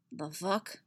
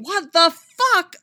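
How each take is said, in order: First: Quiet, muttered under the breath. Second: Loud, slow, drawn-out disbelief; shocked exclamation. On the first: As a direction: mumble it in confusion. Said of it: "he mutters". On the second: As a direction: blurt it out in shock. Sudden shock at spider robot. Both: A narrator's reading.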